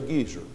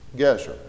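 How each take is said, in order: First: The first vowel is a long ee sound. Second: The first vowel is a short eh sound. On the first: It names an old man. The speaker calls it wrong. "Don't say Gezer" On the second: It names the city. The speaker calls it right. "It's Gezer"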